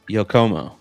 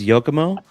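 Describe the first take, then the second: First: The stress falls on the middle syllable. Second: No syllable is given special stress. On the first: "The emphasis is on the co" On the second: "So no emphasis"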